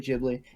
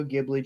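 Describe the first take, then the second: First: "Ghibli" starting with a J sound. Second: "Ghibli" starting with a hard G. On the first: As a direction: say "Ghibli" as if spelt Jibli. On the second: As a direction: say "Ghibli" with the G of "give". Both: Shown as a demonstration. Offers both pronunciations of the name.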